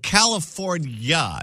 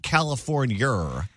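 First: The word ends in a plain vowel, no r. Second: The word ends with an added r sound. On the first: The speaker calls it right. "We're California" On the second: The speaker calls it wrong. "When did we get an R at the end of our state's name?"

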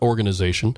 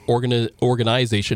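First: It is said in a plain everyday accent. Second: It is said in a hockey-talk style accent. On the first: The speaker calls it wrong. "not organization" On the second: The speaker calls it right. "as I speak hockey now, it's organization"

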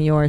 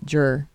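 First: The word starts with a clear y sound. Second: The word starts with a j sound. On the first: "instead of saying you're" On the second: "say jur"

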